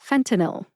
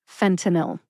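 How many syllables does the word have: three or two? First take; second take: three; three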